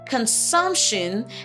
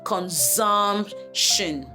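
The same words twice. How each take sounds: First: The middle consonant is a hissing S sound. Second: The middle consonant is a buzzing Z sound. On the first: The speaker calls it right. "It's pronounced the same way" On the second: The speaker calls it wrong. "and not"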